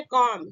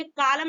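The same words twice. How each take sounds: First: कॉम with no L; silent L. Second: कॉलम with the L sounded; mispronounced calm, 'kaa-lum'; wrong pronunciation. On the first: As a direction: say कॉम in one syllable, L dropped. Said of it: "इसको हम पढ़ेंगे". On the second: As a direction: say कॉलम in two syllables, L heard. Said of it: "कॉलम नहीं पढ़ेंगे". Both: Shown as a demonstration.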